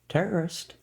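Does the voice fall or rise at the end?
rise. It is said with a questioning rise.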